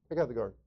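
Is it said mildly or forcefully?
mildly. It is said mildly, without force.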